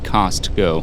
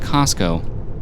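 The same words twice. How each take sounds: First: The T sound is pronounced clearly. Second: The T sound is softened or dropped. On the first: Someone else says it this way. The speaker calls it wrong. "Would emphasize the T" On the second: The speaker prefers saying it this way. The speaker calls it right. "It just sounds so much better"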